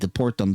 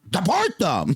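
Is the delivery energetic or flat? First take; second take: flat; energetic. First: It is said flatly with little energy. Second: It is said forcefully with lots of energy. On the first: The speaker sounds unenthusiastic about the plan. The speaker calls it wrong. "where's your freaking enthusiasm" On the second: The speaker sounds committed and fired up. The speaker calls it right. "put like a little oomph in your in your step"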